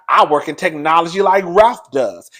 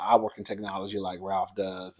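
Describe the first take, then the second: First: It is said in an indignant, dramatic way. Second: It is said in a casual, matter-of-fact way.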